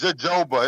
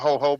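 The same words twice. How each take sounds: First: The word begins with a J sound. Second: The word begins with an H sound. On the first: The speaker calls it right. "It's a J" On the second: The speaker calls it wrong. "It's not jojoba"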